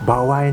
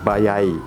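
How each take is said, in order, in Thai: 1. ออกเสียงโดยมีเสียงเลื่อน w ระหว่างสระ 2. ออกเสียงโดยมีเสียงเลื่อน y ระหว่างสระ (1) "เคยเจอคนบางคนเนี่ยพูดคำว่าbawai" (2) "ประสบการณ์ตรงยังไม่เคยเห็นเจอคนญี่ปุ่นพูดแบบนี้"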